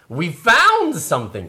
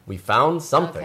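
First: It is said with strong emphasis. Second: It is said plainly without emphasis.

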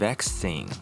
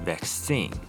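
First: British style, stressed on the first syllable. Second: American style, stressed on the second syllable.

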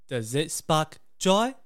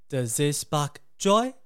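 The two takes are said the same way.

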